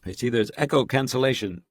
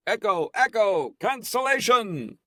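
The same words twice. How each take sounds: First: Said in the usual way. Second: Much higher, drawn-out playful echo test; mock echo call. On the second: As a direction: sing out the words like into a canyon. Testing echo alone on call.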